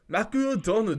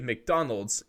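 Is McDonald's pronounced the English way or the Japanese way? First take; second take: Japanese; English. First: It is pronounced with Japanese sounds. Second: It is pronounced with English sounds.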